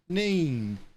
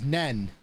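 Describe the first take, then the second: First: The vowel is long, rhyming with seen. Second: The vowel is short, rhyming with hen. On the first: This is how people outside Northampton say it. The speaker calls it right. "It's obviously Neen" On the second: This is how locals in Northampton say it. The speaker calls it wrong. "The numbskulls in Northampton pronounce that as Nen"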